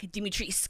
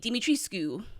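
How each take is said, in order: First: The name ends in a 'sk' sound, no final vowel. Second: The name ends with a pronounced 'coo' syllable. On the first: This is the version the game company approved. "someone from Capcom sent back Dimitrisk" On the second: This is how people from the region say it. "you pronounce the the Q, so it would be Dimitrescu"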